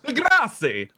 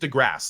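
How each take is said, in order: First: The name is said with an Italian-sounding pronunciation. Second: The name is said with a plain English pronunciation. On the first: The speaker calls it wrong. "I know his name makes it look like he's Italian. You want to be like DeGrasse or something" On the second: The speaker calls it right. "No, but it's just DeGrasse. Like that's how he says it"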